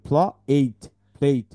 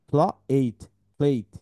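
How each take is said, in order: Both takes have the same delivery.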